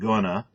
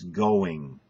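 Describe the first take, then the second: First: The final -ing ending is dropped. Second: The final -ing ending is fully pronounced. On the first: The speaker calls it wrong. "It's not gonna" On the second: The speaker calls it right. "it's going"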